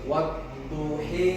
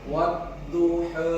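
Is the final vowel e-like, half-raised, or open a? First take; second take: e-like; half-raised. First: The final vowel is raised toward e. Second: The final vowel is a half-raised a. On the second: "itu taklil"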